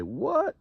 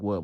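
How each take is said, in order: First: High, startled what; shocked what. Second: Said in the usual way. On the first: Retold or imitated. Inmates reacting in shock to the lockdown. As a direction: jump at the news. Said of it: "So we like". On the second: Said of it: "I'm not like".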